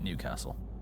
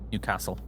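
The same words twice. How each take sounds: First: The stress falls on new. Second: The stress falls on castle. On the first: This is how outsiders say it. "Everyone outside of Newcastle calls it Newcastle" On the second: This is how the locals say it. "with the emphasis on castle and and not new"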